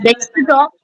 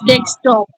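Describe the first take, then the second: First: "desktop" said the mistaken way; the slipped version of "desktop", as a correction example; mispronounced desktop. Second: "desktop" said in its proper form; careful corrective "desktop" for a learner; corrected desktop pronunciation. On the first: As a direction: imitate the faulty pronunciation of "desktop". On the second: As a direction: model "desktop" as it is pronounced. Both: Shown as a demonstration. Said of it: "little bit pronunciation issues".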